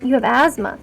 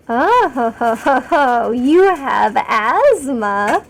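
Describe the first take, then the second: First: Said in the usual way. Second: Drawn-out theatrical ho-ho, then a very slow question; mock-grand taunting. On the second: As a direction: stretch it out with hammed-up relish.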